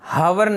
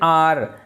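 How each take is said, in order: First: The word starts with a pronounced h sound. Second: The word starts directly with a vowel sound. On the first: The speaker calls it wrong. "इसको हम हावर नहीं कहते" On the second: The speaker calls it right. "जैसे एन आर"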